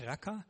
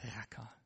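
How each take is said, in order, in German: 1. Das Wort wird sanft gesagt, ohne spuckenden Laut. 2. Das Wort wird hart gesagt und ahmt Spucken nach. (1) "Nicht Racker" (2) "sondern Racker"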